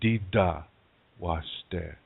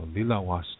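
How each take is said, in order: First: It is said in the Dakota dialect. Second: It is said in the Lakota dialect.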